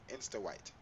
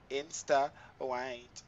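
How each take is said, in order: First: Said in the usual way. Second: Slow drawn out. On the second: Shown as a demonstration.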